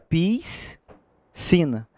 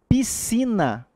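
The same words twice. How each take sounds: First: The S and C are sounded as two separate sounds. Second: The S and C are merged into one sound. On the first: The speaker calls it wrong. "Então você não pronuncia piscina. Senão você estaria pronunciando o S e o C" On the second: The speaker calls it right. "é um som apenas"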